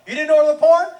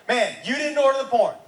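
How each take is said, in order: First: "porn" louder, rising at the end; incredulous question. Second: Said in the usual way. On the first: Retold or imitated. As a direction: push "porn" up into a loud question. Second take, pressed as a question.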